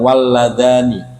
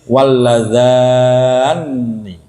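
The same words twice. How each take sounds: First: The n sound is short and light. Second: The n sound is doubled and held longer. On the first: "bitakfifin nun, dibaca ringannya nun" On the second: "ada yang membaca berat, memberikan tasdid"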